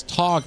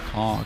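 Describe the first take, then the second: First: Said in the usual way. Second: The word talk said softer, lower and drawn out; ironic talk. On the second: Shown as a demonstration. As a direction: say talk with a knowing wink, meaning fight. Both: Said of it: "but we all know it's kinda like".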